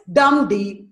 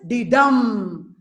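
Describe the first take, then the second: First: DUM strong, then light D; trochaic beat. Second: Light D, then a long strong DUM; iambic beat. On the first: Teacher contrasts trochee with iamb, stress on dum before D. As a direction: punch dum first, D unstressed. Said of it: "Trochee is dum D". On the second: Teacher contrasts iamb with trochee, stress landing on dum after D. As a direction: keep D short and land on dum. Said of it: "The other one, iamb is". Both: Shown as a demonstration.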